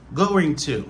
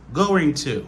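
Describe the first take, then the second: Both takes have the same delivery.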